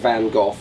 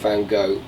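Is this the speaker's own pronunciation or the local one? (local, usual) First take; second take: usual; local. First: The name is said the speaker's own usual way. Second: The name is said the way locals say it. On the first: "let's call it the Van Gogh" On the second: "if you're over here"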